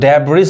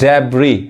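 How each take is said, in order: First: The word ends with an s sound. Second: The word ends without an s sound. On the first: The speaker calls it wrong. "बहुत लोग गलत पढ़ते हैं" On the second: The speaker calls it right. "एस नहीं पढ़ाता है"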